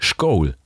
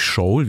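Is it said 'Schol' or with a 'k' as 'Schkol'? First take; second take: Schkol; Schol. First: It is said in East Frisian Plattdeutsch, with 'k'. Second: It is said in the speaker's own Plattdeutsch, without 'k'.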